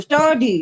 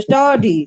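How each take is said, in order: First: স্টাডি with the vowel drawn out long; long vowel study. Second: স্টাডি with a short, quick vowel; short vowel study. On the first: Teacher models for students: long vowel. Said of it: "এটা একটু আমাদের বেশিক্ষণ টানতে হবে". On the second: Teacher models for students: short vowel. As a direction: keep the vowel in স্টাডি brief. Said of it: "টানাটা একটু কম হবে". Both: Shown as a demonstration.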